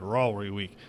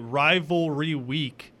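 First: The syllables are slurred together without tongue contact. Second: Each syllable is pronounced clearly and separately. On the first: "You don't actually ever bring like your tongue to the roof of your mouth" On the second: "I'm trying to enunciate"

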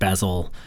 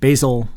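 First: The name is said the British way. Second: The name is said like the herb. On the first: The speaker calls it wrong. "and not Basil, like the British pronunciation" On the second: The speaker calls it right. "His name is pronounced Basil, like the herb"

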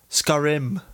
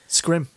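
First: The word is said with two full syllables. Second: The word is squeezed into one syllable. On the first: The speaker calls it right. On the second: The speaker calls it wrong.

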